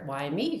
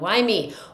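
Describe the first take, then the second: First: It sounds curious and wondering. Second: It sounds despairing and self-pitying.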